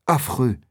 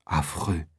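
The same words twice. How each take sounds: First: Said in the usual way. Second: Very soft and much lower, barely voiced; hushed murmur of shock. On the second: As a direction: breathe it out in horror. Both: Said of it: "murmure Athos".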